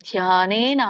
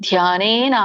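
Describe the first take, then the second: No difference in how they are said.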